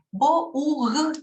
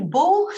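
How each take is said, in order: First: Bought said as bou-ght, following the letters; wrong spelling-based reading. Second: Bought said as "bo", cut short and odd-sounding; sounds odd. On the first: Teacher showing students the wrong spelling-based reading. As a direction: read bought the way it is written, wrongly. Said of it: "y ni siquiera así es". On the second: Teacher showing students a strange-sounding attempt. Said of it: "suena raro". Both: Shown as a demonstration.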